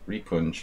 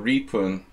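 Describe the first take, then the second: First: The name ends with a J sound. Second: The name ends without a J sound. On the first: The speaker calls it right. "So the J should be pronounced" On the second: The speaker calls it wrong. "I just like make it silent"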